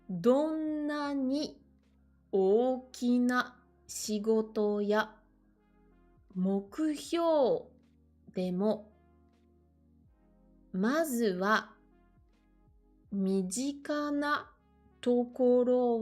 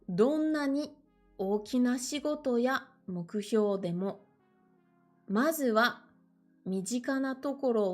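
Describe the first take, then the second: First: It is read at a slow, careful pace. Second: It is read at a slightly quicker pace. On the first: "Je vais essayer de ne pas lire trop vite" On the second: "un tout petit peu plus vite"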